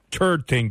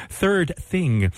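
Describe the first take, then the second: First: "third thing" said loosely, like "turd ting"; slipped pronunciation. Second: "third thing" very slowly, each th fully sounded; over-enunciate the th in "third thing"; self-correcting, drawn-out "third thing" with clear th; careful pronunciation. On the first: Real, not acted. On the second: Shown as a demonstration. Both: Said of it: "pronunciation is letting me down".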